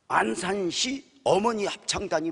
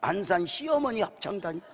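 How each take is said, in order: First: The break comes after 'Ansansi', before 'eomeoni'. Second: The break comes after 'Ansan', before 'sieomeoni'.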